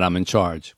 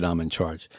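First: "I'm in charge." asked as an unsure question. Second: "I'm in charge." said low, soft and final; settled statement. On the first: Host shows grief's first thought, asking it unsure. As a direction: lift the tune on "I'm in charge.". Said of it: "Question mark". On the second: Host shows acceptance of the role, quiet and final. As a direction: drop it down, a firm quiet period. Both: Shown as a demonstration.

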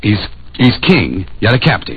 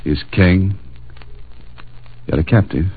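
First: Puzzling it out. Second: The answer dawning as he says it; working out the riddle. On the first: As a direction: turn the words over, half to himself. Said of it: "Say anything". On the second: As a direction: piece it together step by step. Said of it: "King of the beasts, the lion". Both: Retold or imitated.

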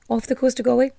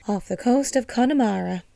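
First: Said in the usual way. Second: A weak, bad try at an Irish accent, a bit softer; Irish lilt on Connemara, failing at it; attempted Irish accent. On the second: Shown as a demonstration. Host trying an Irish accent for the island's location, badly. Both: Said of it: "That was a fucking atrocious accent".

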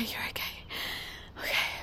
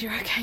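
First: Much softer, a near-silent whisper; whispered reassurance. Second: Said in the usual way. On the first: Acted. Alone after the nightmare, Lydia tells herself she's fine in a whisper. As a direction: soothe yourself under your breath.

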